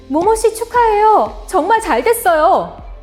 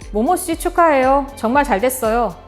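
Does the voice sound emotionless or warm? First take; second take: warm; emotionless. First: It is said warmly, with feeling. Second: It is said flatly, without feeling. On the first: The speaker is sincerely happy for the listener. The speaker calls it right. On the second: The congratulations may not be sincere. The speaker calls it wrong.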